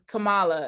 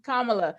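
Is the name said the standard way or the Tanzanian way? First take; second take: Tanzanian; standard. First: The name is said the Tanzanian way. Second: The name is said the standard way. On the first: "the Tanzanian pronunciation is Kamala" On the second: "I don't want to mispronounce it"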